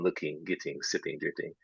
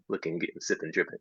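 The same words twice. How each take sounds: First: The endings are said as full -ing. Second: The endings are clipped to -in', hip hop style.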